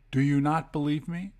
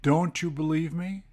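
First: "not" stands out after the subject; emphasis on NOT. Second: Said in the usual way. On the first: Shown as a demonstration. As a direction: stress "not" in the split question. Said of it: "this puts an emphasis on the question". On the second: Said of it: "will split it up like this".

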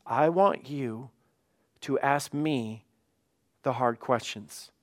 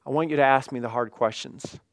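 First: Measured phrases with pauses between them; God's invitation, delivered slowly and deliberately; slow, deliberate emphasis. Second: Said in the usual way. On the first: Retold or imitated. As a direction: lay it out slowly, piece by piece. Repeats God's words slowly for emphasis.

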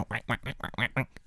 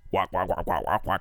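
First: Soft little duck quacks. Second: Low quack from a huge duck; giant duck voice. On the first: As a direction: quack quietly like a normal duck. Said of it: "They go". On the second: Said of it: "three octaves lower". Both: Retold or imitated.

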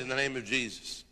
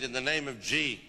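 First: Said in the usual way. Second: "G" cut off short before the rest of the name; "In the name of G" with the name chopped off; clipped name. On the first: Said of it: "time to say the ziz". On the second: Shown as a demonstration. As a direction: stop dead on "G". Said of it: "don't even have time to say the ziz".

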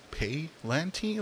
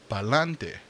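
First: "Pay-lanti" slow, English "pay" with stress on PAY; mock misreading. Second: "pa'lante" with a Spanish "a" and a trilled-free "te" ending; Spanish pronunciation. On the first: Trying to read the HBO title, slow English "Pay-lanti". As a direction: drag out "Pay-lanti" as a puzzled English reader. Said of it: "I remember reading that". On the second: Realizing the title is Spanish, saying "pa'lante" natively. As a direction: say "pa'lante" the Spanish way, falling at the end. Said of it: "it's saying". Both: Shown as a demonstration.

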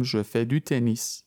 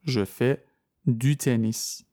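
First: "je fais du tennis" said slowly in one smooth phrase; slow example, all in one breath; slow model sentence. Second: "Je fais", a pause, then "du tennis"; split into chunks. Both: Shown as a demonstration.

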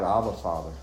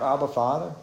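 First: "Abba, Father" lower and softer, falling gently; heartfelt cry. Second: "Abba, Father" with a rising, asking tune; questioning call. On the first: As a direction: say "Abba, Father" low and quiet, as a sincere personal prayer. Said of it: "I cry out". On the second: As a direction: say "Abba, Father" as a question to the congregation, the end going up. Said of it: "Do you cry out". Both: Shown as a demonstration.

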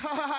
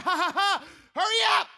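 First: Mild mock chuckle of amused guests; easy imitated ha-ha-ha; imitated crowd laughter. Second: Loud, high forced laugh into a shout; hammed-up exasperated mock laughter, building louder; irritated fake laugh. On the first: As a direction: imitate a room laughing politely at a joke. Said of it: "everybody's like". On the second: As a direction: fake the laugh, then yell impatiently. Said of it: "I'm getting irritated".

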